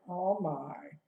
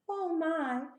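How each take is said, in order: First: It is said in a bored tone. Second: It is said in an excited tone.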